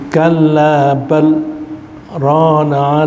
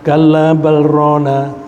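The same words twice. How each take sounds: First: A brief pause comes between bal and rana. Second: Bal and rana run straight together, unpaused. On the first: The speaker calls it right. "antara bal dan rona itu ada saktah" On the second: The speaker calls it wrong. "bukan kalla bal rana itu lang, langsung"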